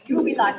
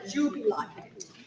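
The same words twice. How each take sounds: First: The word begins with a y sound. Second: The word begins with a j sound. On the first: The speaker calls it right. "It's always a Y or a Y sound" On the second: The speaker calls it wrong. "not a jubilate"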